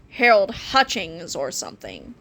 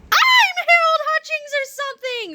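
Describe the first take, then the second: First: Said in the usual way. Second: High-pitched, overjoyed squeal; screamed. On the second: A narrator's reading. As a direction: scream it like someone going crazy with joy. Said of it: "screamed Harold as he jumped up and down".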